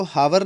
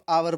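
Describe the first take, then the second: First: हावर said with a clear h sound at the start; हावर voiced with an h, like "how-er"; wrong pronunciation. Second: आवर with a silent h, starting on the vowel; आवर without any h sound; correct pronunciation. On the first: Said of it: "इसको हावर नहीं पढ़ेंगे हम". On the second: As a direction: drop the h, say आवर like "our". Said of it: "इसको आवर पढ़ेंगे". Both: Shown as a demonstration.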